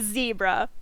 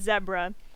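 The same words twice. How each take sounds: First: It is said in a non-British way. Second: It is said in a British way. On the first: This is the speaker's own usual pronunciation. "I pronounce it zebra" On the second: This is how some other people say it. "some people pronounce it zebra"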